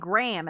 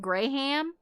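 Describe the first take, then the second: First: There is no H, just one syllable. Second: The H is sounded fully between the vowels. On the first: The speaker calls it wrong. "everyone else pronounces it Graham" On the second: The speaker calls it right. "fully pronouncing the H like I do"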